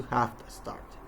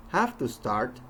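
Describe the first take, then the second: First: "have to start" squeezed to "hafta start"; reduced phrase. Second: "Have to start" with "to" as a full "too"; full unreduced form. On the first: Teacher showing what it changes into, reduced "have to start". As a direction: run "have to start" together, softly, as "hafta start". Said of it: "changes into". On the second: Teacher showing phrase reduction, "Have to start" spoken in full. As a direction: say "Have to start" with both first words whole. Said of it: "combining or squeezing parts". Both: Shown as a demonstration.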